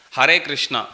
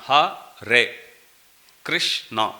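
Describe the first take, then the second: First: Said in the usual way. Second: HARE KRISHNA split into Ha, re, Krish, na; syllable by syllable. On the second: Shown as a demonstration. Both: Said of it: "every word is two syllables".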